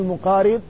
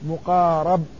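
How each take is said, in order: First: The vowel after the r is 'i'. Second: The vowel after the r is 'a'. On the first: It is an active participle: one who comes near. "تقول مقارب على أنه وصف اسم الفاعل" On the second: It is a passive participle: one who is brought near. "ما قبل الأخير يفتح، فتقول مقارب"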